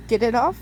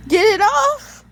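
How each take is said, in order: First: Said in the usual way. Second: High, loud panicked cry to get it off; panicked shout. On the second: Acted. Girl panicking at the shackle on her wrist, loud panicked cry. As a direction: yell it in panic, voice jumping up high.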